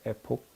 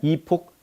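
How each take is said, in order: First: The first vowel sounds like 'eh'. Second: The first vowel sounds like 'ee'.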